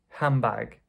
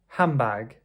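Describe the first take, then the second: First: The D is dropped and the N becomes M. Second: The same.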